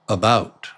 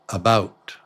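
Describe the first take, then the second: First: The first vowel is reduced to a quick schwa. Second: The same.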